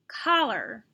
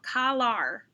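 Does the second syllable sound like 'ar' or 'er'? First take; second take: er; ar. First: The second syllable has an 'er' vowel. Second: The second syllable has an 'ar' vowel. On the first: The speaker calls it right. "Now try it with the er" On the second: The speaker calls it wrong. "Try it with the first R sound"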